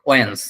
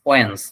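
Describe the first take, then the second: The two takes are said the same way.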